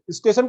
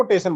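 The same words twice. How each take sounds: First: Said in the usual way. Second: "टेशन" for स्टेशन, opening स dropped; child's sound omission. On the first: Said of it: "स्टेशन को टेशन बोलना". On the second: Shown as a demonstration. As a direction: drop the first स and start "टेशन" on ट. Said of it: "टेशन, हटा दिया". ("टेशन" में शुरू का स हटाकर बोलें)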